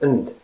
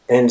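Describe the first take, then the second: First: The word is reduced to a short 'n' sound. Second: The word is said fully with a clear vowel.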